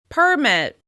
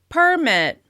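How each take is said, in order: First: The stress is on the first syllable. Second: The stress is on the first syllable.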